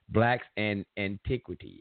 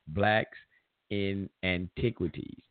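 First: The title is said at a normal pace. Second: The title is said slowly and deliberately.

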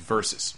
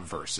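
First: The word is said as two syllables. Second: The word is said as one syllable. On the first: The speaker calls it right. "It's versus" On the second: The speaker calls it wrong. "It's not verse"

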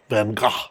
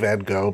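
First: The name gets a careful, precise pronunciation. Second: The name gets the usual everyday pronunciation. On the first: Insisting on the strictly correct form. "immediately I'm going to go into pedantic mode" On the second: Going along with how most people say it. "we'll say Van Gogh because everybody does"

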